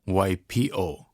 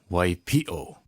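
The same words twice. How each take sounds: First: It is said without a glottal stop. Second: It is said with a glottal stop. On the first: The speaker calls it wrong. "A lot of people say waipio, waipio. Without the okina" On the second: The speaker calls it right. "But in Hawaiian, it is Waipio"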